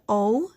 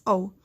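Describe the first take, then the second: First: "O" said as short "ah"; O as open "ah", not "oh"; short O sound. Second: "O" said as long "oh"; O as a rounded, gliding "oh"; long O sound. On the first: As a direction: give O its short vowel, as in "hot". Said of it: "The O says". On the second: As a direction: give O its letter-name sound, "oh". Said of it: "but it also says". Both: Shown as a demonstration.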